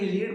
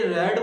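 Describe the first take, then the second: First: The word has a long 'ee' vowel, like 'reed'. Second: The word has a short 'e' vowel, like 'red'. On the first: It is the present form of the verb. The speaker calls it wrong. "ना कि रीड बोला जाता है" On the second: It is the past form of the verb. The speaker calls it right. "इसे रेड बोला जाता है"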